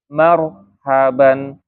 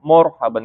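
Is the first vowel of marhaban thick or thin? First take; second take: thin; thick. First: The first vowel is thin and open, like ma. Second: The first vowel is thick and rounded, like mor. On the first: The speaker calls it right. "ma-nya tipis" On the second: The speaker calls it wrong. "ma-nya jangan jadi mor morhaban"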